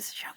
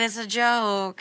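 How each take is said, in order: First: It is whispered. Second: It is said in a full voice.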